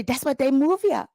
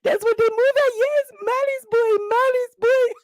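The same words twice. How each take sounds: First: Said in the usual way. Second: Higher, sing-song taunt; mocking villager. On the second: Villagers mocking Mali's boy, sing-song high.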